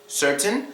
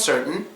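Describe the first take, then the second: First: The T is fully released. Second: The T is silent, leaving a little gap.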